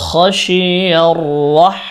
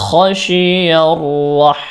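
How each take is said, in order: Both takes have the same delivery.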